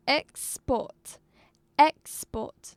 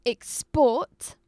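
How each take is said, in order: First: Export with EX punched, port lighter; stress on first syllable. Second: Export with a light ex and a loud, long PORT; stress on second syllable. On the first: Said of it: "it was in the first syllable". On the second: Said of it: "put stress on the second syllable". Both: Shown as a demonstration.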